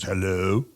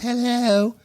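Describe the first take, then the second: First: It is said in a male-sounding voice. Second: It is said in a female-sounding voice.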